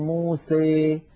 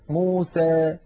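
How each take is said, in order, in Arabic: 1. الحركة الأخيرة تميل بقوة نحو 'ee'. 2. الحركة الأخيرة تميل قليلا نحو 'ee'. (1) "يبالغ في هذا الأمر فيخلط صوت الألف بصوت الياء أكثر" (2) "ويخلطون هذا الصوت بشيء من الياء"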